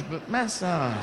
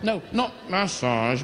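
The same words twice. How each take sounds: First: "massage" said the saucy way, slower, with a laugh; laughing correction. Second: "massage" said the plain English way, MASS-ahj; pronunciation correction. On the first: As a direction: lean into the naughty "massage" slowly. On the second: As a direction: correct yourself on "massage" the ordinary way. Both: Shown as a demonstration. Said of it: "No, not massage, but massage".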